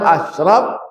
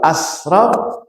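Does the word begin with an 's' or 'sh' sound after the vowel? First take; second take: sh; s. First: The consonant is a 'sh' sound. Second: The consonant is an 's' sound. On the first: It means the most noble. The speaker calls it right. "yang paling mulia" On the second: It means the most wasteful. The speaker calls it wrong. "yang paling boros"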